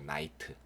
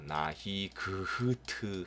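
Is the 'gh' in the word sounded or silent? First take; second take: silent; sounded. First: The gh is silent. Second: The gh is sounded out. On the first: The speaker calls it right. "GH 발음 안 돼요" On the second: The speaker calls it wrong. "나히 그흐트 하시면 안 돼요"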